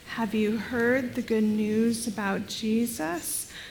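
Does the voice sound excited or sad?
sad. The voice sounds sad and subdued. The news brings sorrow. "in a sad voice"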